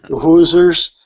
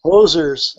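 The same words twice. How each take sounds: First: "Hoosiers" with an oo vowel, louder; mispronounced Hoosiers. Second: "Hosers" with a long oh vowel; corrected Hosers. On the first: Misnaming the Rick Moranis characters, "Hoosiers" with an oo. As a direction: say "Hoosiers" with "hooz" as the first syllable. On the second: Accepting a friend's correction, "Hosers" with a long oh. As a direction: say "Hosers" with "hoze" as the first syllable. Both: Real, not acted. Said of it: "Oh, the Hosers".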